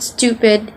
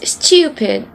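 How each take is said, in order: First: STUPID said American "stoo-pid"; American pronunciation. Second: STUPID said slowly as "styoo-pid"; British pronunciation. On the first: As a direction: say "stupid" with a plain "too". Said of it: "it's not stupid". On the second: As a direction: stretch "stupid" with a British y-glide. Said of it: "it's stupid". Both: Shown as a demonstration.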